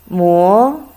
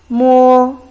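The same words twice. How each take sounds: First: It is said with the second tone. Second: It is said with the first tone. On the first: It means to grind. "Then you go second tongue" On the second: It means touch. "So it's the first tongue"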